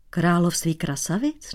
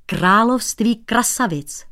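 First: Puzzled echo. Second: Slow, weighty "království krasavic" falling; proclaimed. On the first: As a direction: repeat it baffled. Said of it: "Nechápal cizinec". (nechápavě, stoupavě „Království krasavic?“) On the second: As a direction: announce the name grandly. (slavnostně „království krasavic“) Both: Acted.

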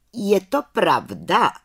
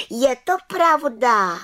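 First: "Je to pravda?" asked slowly, stress on "to", rising at the end; slow questioning. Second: "je to pravda" said slowly, high, stressing "to" and falling firmly; proud affirmation. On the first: Head witch asks the council, slow with rising "pravda?". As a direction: weigh the question, slow and probing. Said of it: "Ptala se vrchní čarodějnice". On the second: Little witch assures the council, high and slow with falling close. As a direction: state it proudly, slow and sure. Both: Acted.

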